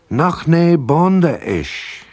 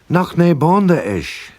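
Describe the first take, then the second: First: It is said slowly and carefully. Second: It is said at normal conversational speed.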